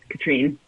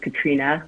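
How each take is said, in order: First: The name ends on the n with no vowel. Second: The name ends with an 'ah' vowel after n. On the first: The speaker calls it wrong. "It's not Katrine" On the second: The speaker calls it right. "It's Katrina, like it has an A at the end"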